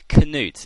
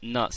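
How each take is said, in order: First: The word begins with a sounded K. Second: The word begins with no K sound. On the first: The speaker calls it wrong. "it doesn't sound right at all" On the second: The speaker calls it right. "Nuts is clearly it"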